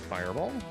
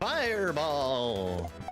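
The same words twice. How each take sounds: First: The word is said plainly and absent-mindedly. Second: The word is said with exaggerated, dramatic inflection. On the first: The spell goes off. "say the word normally" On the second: The spell fails to go off. "putting too much inflection on the word"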